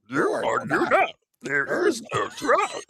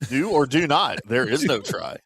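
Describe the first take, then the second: First: It is said in an imitation Yoda voice. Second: It is said in his normal voice.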